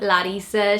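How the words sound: The name is said with a Portuguese pronunciation. This is how the speaker grew up hearing it. "she's always been Larissa"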